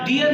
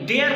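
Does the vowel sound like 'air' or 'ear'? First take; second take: ear; air. First: The vowel sounds like 'ear'. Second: The vowel sounds like 'air'. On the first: The speaker calls it wrong. "डियर नहीं होता है" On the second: The speaker calls it right. "ये डेयर पढ़ा जाता है"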